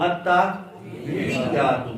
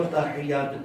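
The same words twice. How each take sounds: First: Slow "التحیات" with heavy doubled ya; stretched-out model "التحیات", tashdeed clearly heard; doubled-ya demo. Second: "تحیات" as ta-hey-yaat, at talking pace; wrong "تحیات" without the pressed ya; mispronunciation demo. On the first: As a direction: press and hold hiyy in "التحیات". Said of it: "یا کے اوپر تشدید پڑی ہوئی ہے". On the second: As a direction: flatten the hii in "تحیات" to hey. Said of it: "بعض اب آپ اس کو تحیات پڑھتے ہیں". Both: Shown as a demonstration.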